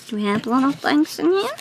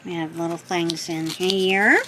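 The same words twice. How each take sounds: First: Higher, sing-song question; playful cute voice. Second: Said in the usual way. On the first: Pretend. Opening the gift box, asking in a cute voice. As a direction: ask it like cooing to a pet.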